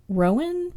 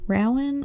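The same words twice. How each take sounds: First: Rowan said as one syllable, like roan; one pronunciation. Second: Rowan said as ROW-an, rhyming with cow; other pronunciation. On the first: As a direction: Rowan spoken as ROHN, long o. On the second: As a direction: Rowan spoken in two syllables, ow as in now. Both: Shown as a demonstration. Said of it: "I'm not sure how you say her last name".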